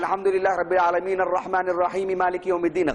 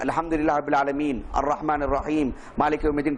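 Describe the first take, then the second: First: The verses run together without pauses. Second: There is a pause after each verse. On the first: The speaker calls it wrong. "ऐसा नहीं कि ... गलत अंदाज है ये" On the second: The speaker calls it right. "ठहर ठहर कर ही"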